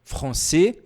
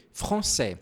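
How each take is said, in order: First: "Français" with a final "é", rising; closed vowel. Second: "français" with a final "è", lower and falling; open vowel. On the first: Teacher contrasting regional variants, "Français" with closed final "é". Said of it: "Isso depende da região da França". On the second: Teacher contrasting regional variants, "français" with open final "è". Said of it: "um pouco mais aberto". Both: Shown as a demonstration.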